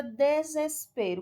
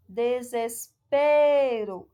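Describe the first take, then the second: First: Said in the usual way. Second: Desespero stretched slowly with a long, loud PE; stress on PE. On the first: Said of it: "qual é a sílaba tônica da palavra desespero". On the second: Shown as a demonstration. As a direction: hold and call out the PE in desespero. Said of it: "A sílaba tônica que a gente vê". (desespero bem devagar, com o PE forte e alongado)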